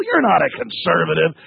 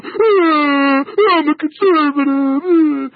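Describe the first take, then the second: First: Said in the usual way. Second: Slow whining mock voice, higher; sneering whimpering imitation of a caller; mocking whiny caller. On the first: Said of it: "just that fake bull". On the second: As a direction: mimic the caller as a crybaby. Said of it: "these guys are calling in going".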